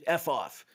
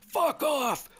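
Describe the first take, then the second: First: It is said very quietly. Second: It is yelled loudly.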